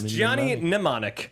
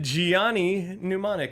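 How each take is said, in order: First: The first name is said as plain Johnny. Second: The first name blends Johnny and Keanu. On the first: The speaker calls it right. "No, it's" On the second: The speaker calls it wrong. "I said"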